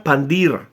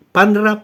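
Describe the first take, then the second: First: "Pandira" lower, three syllables with the i; later form. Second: "Pandra" crisp, higher, two syllables; original form. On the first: Lecturer contrasting the later form with the original. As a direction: say "Pandira" the way the Levites came to say it. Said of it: "la terminan pronunciando como Pandira". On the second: Lecturer contrasting the original with the later form. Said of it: "no la pronuncian como es". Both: Shown as a demonstration.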